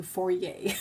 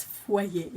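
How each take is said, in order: First: Foyer as "FOR-yay"; childhood pronunciation. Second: Foyer as "fwah-YAY"; French pronunciation. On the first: Recalling what the family called it, foyer as "FOR-yay". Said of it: "We grew up calling it the foyer". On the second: Correcting friends on the French word, foyer as "fwah-YAY". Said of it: "in French anyway". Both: Shown as a demonstration.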